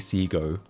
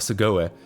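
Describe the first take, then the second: First: It is said with a plain English 'see-go' sound. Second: It is said like a Japanese word, 'sugoi'. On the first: The speaker calls it right. "It is actually Sigo" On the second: The speaker calls it wrong. "I pronounced it like a Japanese word"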